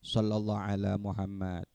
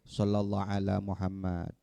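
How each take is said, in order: No difference in how they are said.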